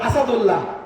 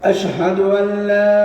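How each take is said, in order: First: The word begins with a plain 'as' sound. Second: The word begins with a clear 'ash' sound. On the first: The speaker calls it wrong. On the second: The speaker calls it right.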